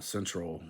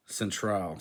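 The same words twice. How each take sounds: First: Said in the usual way. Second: "Central" as cen-TRAHL; open, full "al" closing "Central"; Spanish ending. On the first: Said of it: "words that end in al". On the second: Shown as a demonstration. Learner reading the Spanish word, "Central" with full "al". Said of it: "stressed at the last syllable".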